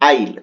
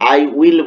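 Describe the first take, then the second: First: It is said as one contracted syllable. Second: It is said as two full words. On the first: The speaker calls it right. "এখানে বলবে আইল" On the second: The speaker calls it wrong. "আই উইল বলবে না"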